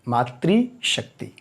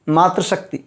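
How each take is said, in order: First: The first part is said as 'maatri'. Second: The first part is said as 'maatra'. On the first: The speaker calls it right. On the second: The speaker calls it wrong.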